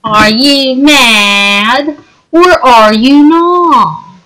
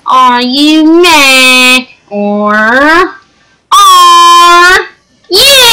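First: Slow taunting. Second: Mock teasing, squeaky ending; sing-song taunt rising to a squeal. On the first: Acted. Drawn-out taunt. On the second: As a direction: stretch it out, end in a high squeal.

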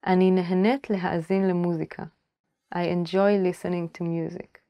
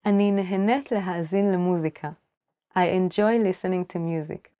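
The two takes are said the same way.

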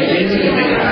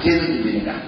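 First: ကျေးဇူးပြုပေးတာ lifted high, ending on a rise like a question to the class; rising teaching prompt. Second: ကျေးဇူးပြုပေးတာ repeated softer, falling to a close; settled answer. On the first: Monk prompts the yogis to finish the answer, ကျေးဇူးပြုပေးတာ rising. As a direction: pitch ကျေးဇူးပြုပေးတာ up and leave it hanging. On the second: Monk confirms the answer to the yogis, ကျေးဇူးပြုပေးတာ soft and falling. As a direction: confirm ကျေးဇူးပြုပေးတာ quietly with a final fall. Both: Shown as a demonstration.

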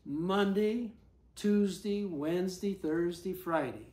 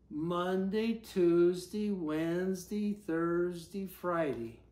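No difference in how they are said.

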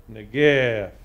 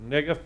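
First: "negef" with a loud, drawn-out second syllable; stress on last syllable of negef. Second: "negef" with the first syllable emphasized; stress on first syllable of negef. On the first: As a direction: say "negef" as neh-GEEEF. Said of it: "otherwise, it would be". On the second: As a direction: say "negef" as NEH-gef, light short ending. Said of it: "would be the way to pronounce it". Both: Shown as a demonstration.

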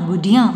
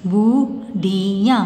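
First: Said in the usual way. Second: बुढ़िया very slow in separate pieces; syllable by syllable. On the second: Shown as a demonstration. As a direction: stretch every sound of बुढ़िया. (बुढ़िया को तोड़-तोड़ कर, धीरे) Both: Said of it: "sound pronounce करके देख लीजिए".

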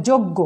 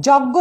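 First: যজ্ঞ with rounded o, "jog-go"; as pronounced, closed o. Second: যজ্ঞ with open ɔ, "jawg-go"; as written, open vowel. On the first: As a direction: say যজ্ঞ with first vowel closed to o. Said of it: "উচ্চারণ হবে". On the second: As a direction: say যজ্ঞ as spelt, first vowel wide. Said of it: "লিখেছি". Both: Shown as a demonstration.

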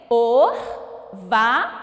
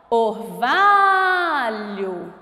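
First: "Orvalho" em três sílabas, com pausas; separando as sílabas. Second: VA de "Orvalho" bem esticado e forte; chamando a palavra. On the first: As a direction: diga "Orvalho" pausado: or, va, lho. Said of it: "Quantas sílabas tem?". ("Orvalho" silabado devagar, sílaba por sílaba) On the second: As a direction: chame "Orvalho" prolongando o VA. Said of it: "Vamos descobrir agora qual é a sílaba tônica?". ("Orvalho" numa emissão só, lenta, com VA longo) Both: Shown as a demonstration.

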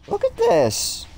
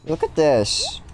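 First: Squeaky high voice. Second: Said in the usual way. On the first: Pretend. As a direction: jump way up into a tiny squeak. Repeats line in squeaky voice.

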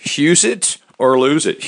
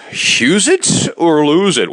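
First: Said in the usual way. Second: Slow, high slogan callout; announcer slogan. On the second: Acted. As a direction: announce the show's catchphrase.

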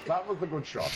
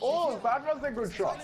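First: Calmer, level, honest praise; sincere. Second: Impressed. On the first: Admitting to a teammate that the shot was good, sincerely. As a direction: say it again, meaning it. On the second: Praising a teammate's shot, sounding excited. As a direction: react with delight at the shot. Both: Real, not acted. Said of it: "I'll be honest".

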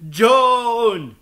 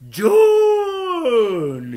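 First: Raised, long call falling at the end. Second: Very high, long-drawn wailing shout; anguished last call. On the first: Scott calls his friend in vain, louder calling out. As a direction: shout into the distance for someone. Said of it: "în zadar striga după el". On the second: Grief-stricken Scott makes a last attempt, anguished wail. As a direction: stretch the name into one desperate cry. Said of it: "Copleșit de durere, Scott făcu o ultimă încercare". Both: Acted.

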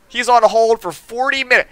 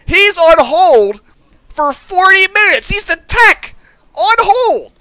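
First: Said in the usual way. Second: Drawn-out higher repeat of the complaint; slower emphatic retelling. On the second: Shown as a demonstration.

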